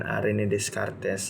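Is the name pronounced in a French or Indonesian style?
Indonesian. The name is said with Indonesian pronunciation. This is how most people commonly say it. "umumnya orang biasa menyebutkan René Descartes"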